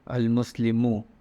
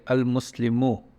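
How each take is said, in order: First: The word ends with a final 'u' vowel. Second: The word ends with a final 'u' vowel.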